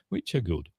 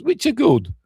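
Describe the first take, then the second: First: Said in the usual way. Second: High, louder squeak of approval; high-pitched concession. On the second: Real, not acted. Concession said high, then repeated low.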